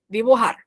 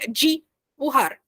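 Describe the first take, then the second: First: The first consonant is a clean, pure D. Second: The first consonant sounds like a soft J. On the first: The speaker calls it right. "o D é aquela coisa pura" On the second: The speaker calls it wrong. "em português falaria dibujar"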